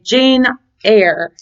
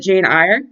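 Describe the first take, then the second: First: Eyre is said like the word 'air'. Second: Eyre is said like the word 'ire'. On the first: The speaker calls it right. "is how you're supposed to pronounce it" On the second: The speaker calls it wrong. "I always called it Jane Eyre because it was a uh, kind of like a play on words"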